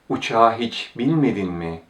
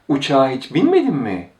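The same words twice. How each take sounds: First: It is said as a plain, neutral question. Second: It is said with a tone of surprise. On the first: The speaker genuinely wants to know the answer. "This sounds like a question" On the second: The speaker has learned the fact and is surprised by it. "It sounds like an expression of surprise"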